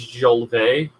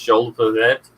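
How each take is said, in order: First: The name is given a French pronunciation. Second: The name is given a non-French, English pronunciation. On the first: The speaker calls it wrong. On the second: The speaker calls it right.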